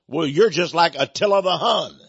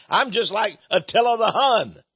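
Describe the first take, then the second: First: Said in the usual way. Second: Higher, incredulous echo of the insult; a hammed-up echo, as if he can't believe it; mock disbelief. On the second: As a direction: toss the insult back, amused and disbelieving.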